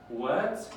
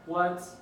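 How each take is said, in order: First: The pitch rises upward. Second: The pitch stays level and high.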